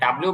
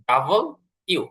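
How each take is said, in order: First: It is squeezed into a short 'dablu'. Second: It is said as 'double' plus 'you'. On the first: The speaker calls it wrong. "ডাব্লিউ বা ডব্লিউ না বলে" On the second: The speaker calls it right. "এটা বলবো ডাবল ইউ"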